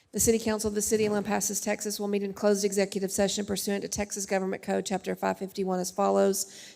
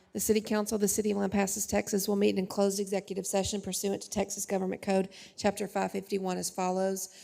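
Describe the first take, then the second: Both takes have the same delivery.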